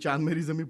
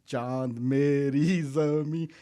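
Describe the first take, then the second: First: The phrase is said quickly in one go. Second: The phrase is said slowly with drawn-out words. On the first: The line ends before the actor reaches his spot. The speaker calls it wrong. "ऐसे नहीं कह देना" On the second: The line lasts until the actor reaches his spot. The speaker calls it right. "ऐसे कहना है"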